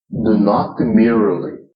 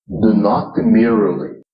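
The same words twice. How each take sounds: Both takes have the same delivery.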